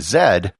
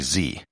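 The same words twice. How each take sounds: First: It is said the Canadian way, as zed. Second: It is said the American way, as zee.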